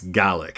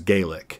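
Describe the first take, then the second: First: The word is said the Scottish way. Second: The word is said the Irish way. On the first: It names the Scottish language. "In Scotland, it's Gaelic" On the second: It names the Irish language. "In I- Ireland, the language is Gaelic"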